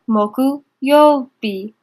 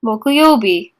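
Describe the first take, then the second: First: Very slow syllable-by-syllable. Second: Said in the usual way. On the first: Shown as a demonstration. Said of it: "teacher stretches reading slowly". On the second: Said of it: "teacher models kanji reading".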